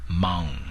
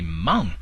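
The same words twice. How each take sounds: First: The voice is raised only halfway. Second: The voice is fully raised on the word. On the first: It calls someone darling or honey. The speaker calls it wrong. "pronounce halfway as" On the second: It asks someone to drive. The speaker calls it right. "raise your voice and say"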